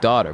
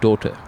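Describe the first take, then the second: First: The first vowel sounds open, like 'ah'. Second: The first vowel sounds rounder, like 'uh'. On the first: The speaker calls it wrong. "they always get the word daughter wrong because they say like daughter" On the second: The speaker calls it right. "but it's daugh- daughter"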